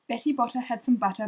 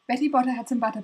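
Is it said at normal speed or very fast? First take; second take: normal speed; very fast. First: It is said at a normal pace. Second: It is said very fast in one breath.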